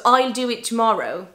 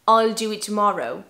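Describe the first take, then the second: First: The word will is contracted to a short l. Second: The word will is contracted to a short l.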